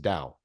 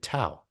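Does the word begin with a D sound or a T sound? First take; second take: D sound; T sound. First: The word begins with a D sound. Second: The word begins with a T sound. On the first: This is the original pronunciation of the word. "That's how you actually pronounce that word is Dow" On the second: This is how the family likely says the name. "I imagine they're calling him Tao"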